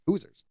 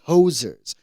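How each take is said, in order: First: The first syllable sounds like 'who'. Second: The first syllable sounds like 'hoe'. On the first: The speaker calls it right. "it actually is like Hoosers" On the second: The speaker calls it wrong. "Hosers are Canada"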